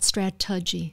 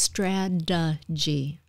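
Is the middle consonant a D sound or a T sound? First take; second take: T sound; D sound. First: The middle consonant is a crisp T sound. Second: The middle consonant is a soft D sound. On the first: It sounds like someone from England. The speaker calls it wrong. "it's not strategy" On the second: It sounds American. The speaker calls it right. "It's a D sound for American English"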